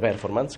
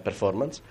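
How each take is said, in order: First: The stress falls away from the 'for' syllable. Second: The stress falls on the 'for' syllable. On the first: The speaker calls it wrong. "non si dice performance, come dicono tutti" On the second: The speaker calls it right. "Performance all'accento sulla O"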